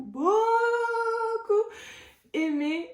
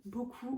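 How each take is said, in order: First: "beaucoup" high, loud, first syllable stretched out; gushing outburst. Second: Softly said "beaucoup", holding back; soft build-up before the outburst. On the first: Vlogger gushing about a loved romance, high drawn-out outburst. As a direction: let "beaucoup" soar, long and loud. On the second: Vlogger gushing about a loved romance, softly. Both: Real, not acted.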